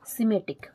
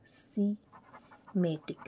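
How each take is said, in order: First: Said in the usual way. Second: semantic drawn out very slowly, softer; slow dictation. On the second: Shown as a demonstration. Teacher dictating to note-takers, semantic slowly syllable by syllable.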